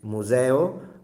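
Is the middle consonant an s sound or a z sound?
z. The middle consonant is a buzzing z sound. "which is standard"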